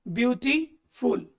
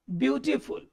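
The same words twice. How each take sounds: First: beautiful split slowly as beauty, pause, फुल; slow, deliberate break between beauty and फुल in beautiful; broken into parts. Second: Said in the usual way. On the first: Shown as a demonstration. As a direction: say beautiful in two separate pieces with a gap before फुल. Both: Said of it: "अब जरा इसको तोड़ के देखिए".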